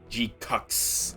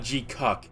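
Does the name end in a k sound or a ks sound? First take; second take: ks sound; k sound. First: The name ends in a ks sound. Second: The name ends in a plain k sound. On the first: The speaker calls it right. "You gotta put an S at the end" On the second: The speaker calls it wrong. "not G-Cuck"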